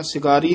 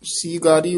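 First: "ਸਿਗਾਰੀ" with a short si at the start; mistaken short vowel. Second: "ਸੀਗਾਰੀ" with a long see at the start; long first vowel. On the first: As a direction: clip the first i in "ਸਿਗਾਰੀ". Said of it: "ਸਿਗਾਰੀ ਨਹੀਂ ਕਹਿਣਾ". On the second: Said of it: "ਦੀਰਘ ਉਚਾਰਨ ਕਰਨੀ ਹੈ". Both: Shown as a demonstration.

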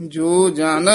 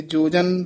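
First: ਜੋ held apart from ਜਨ; words separated. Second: ਜੋ ਜਨ joined quickly as one word; no gap between ਜੋ and ਜਨ; run together. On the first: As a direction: say ਜੋ, then ਜਨ, distinctly. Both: Shown as a demonstration. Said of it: "ਪਾਠ ਇਕੱਠਾ ਨਹੀਂ ਕਹਿ ਦੇਣਾ".

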